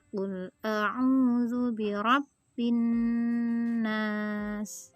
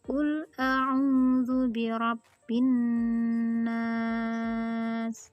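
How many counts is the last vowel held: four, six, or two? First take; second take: two; four. First: The final vowel is held for two counts. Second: The final vowel is held for four counts. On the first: "Kita praktekkan ya dengan dua harokat" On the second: "Bila empat harokat"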